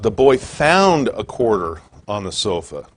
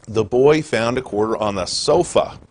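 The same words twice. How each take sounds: First: The word found is stressed. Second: The word sofa is stressed.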